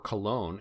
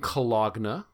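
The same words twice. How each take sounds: First: It is said in an American West Coast pronunciation. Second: It is said in a non-West-Coast pronunciation.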